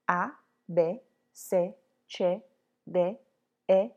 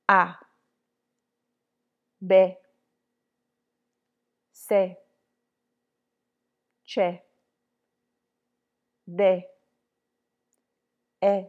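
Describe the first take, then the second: First: The letters are said at a regular speed. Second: The letters are said more slowly. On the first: "one time at regular pace" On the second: "Now more slowly"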